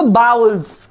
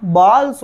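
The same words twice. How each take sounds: First: बाउल्स said with an ow sound, baa-ools; wrong pronunciation. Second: बॉल्स said with a short open o, like balls; correct pronunciation. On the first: Teacher showing the students' wrong बाउल्स. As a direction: say बाउल्स the wrong way, rhyming with towels. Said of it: "बाउल्स नहीं होता". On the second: Teacher giving students the correct बॉल्स. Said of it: "बॉल्स होता है". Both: Shown as a demonstration.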